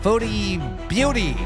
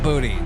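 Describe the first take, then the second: First: The second word is said with a 'byoo' sound. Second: The second word is said with a plain 'boo' sound. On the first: The speaker calls it right. "Foodie beauty, not booty" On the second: The speaker calls it wrong. "not booty. I knew I was saying that wrong"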